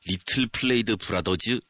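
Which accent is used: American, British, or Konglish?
Konglish. It is said in a Korean-style English accent. The speaker calls it right. "저희는 그냥 끝까지 콩글리시"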